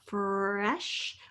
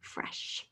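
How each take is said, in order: First: The word is stretched out slowly. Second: The word is said at normal speed.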